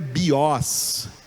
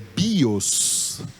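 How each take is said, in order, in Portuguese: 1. A tônica está na segunda sílaba. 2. A tônica está na primeira sílaba. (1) "não é o os, não é bios" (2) "é o bi que é a sílaba tônica"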